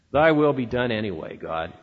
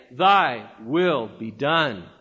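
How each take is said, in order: First: Mildly resigned, fading low. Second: Slow, lower, bitter through clenched teeth. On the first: Preacher voicing a grudging believer, resigned and fading. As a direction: let the words sag into a grumble. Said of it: "a tone of resignation". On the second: Preacher showing the bitter prayer, slow through clenched teeth. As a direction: grind it out slowly between clenched teeth. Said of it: "with clenched and bitter teeth". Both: Shown as a demonstration.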